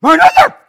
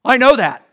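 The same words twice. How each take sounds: First: Shrieking, very high and very loud I know that with a rising know; mock squeal. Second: Louder, higher snappy I know that with a stress on know; defensive retort. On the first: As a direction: caricature a huffy listener squealing in protest. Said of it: "Instead, we go". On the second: Retold or imitated. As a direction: throw it back like a proud listener cutting the preacher off. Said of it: "we say this".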